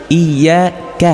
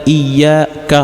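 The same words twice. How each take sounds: The two takes are said the same way.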